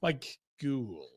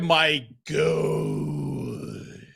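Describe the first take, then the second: First: The surname rhymes with 'cooled'. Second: The surname rhymes with 'good'. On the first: The speaker calls it right. "Rhymes with cooled" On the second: The speaker calls it wrong. "I don't think that's how you say it"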